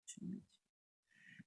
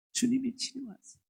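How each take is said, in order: First: Soft whispered echo. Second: Ringing declaration, higher; proclaiming. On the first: Pastor echoing the blessing to the congregation, whispered. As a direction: breathe it like a private promise. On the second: Pastor proclaiming healing to the congregation, ringing. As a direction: announce the healing boldly. Repeated blessing, loud then whispered. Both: Acted.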